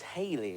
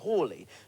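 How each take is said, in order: First: The first vowel is a long 'ay' sound. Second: The first vowel is an 'aw' sound. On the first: "I'd always thought it was Haley, as in [name]" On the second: "some experts, like [name], pronounce it Hawley"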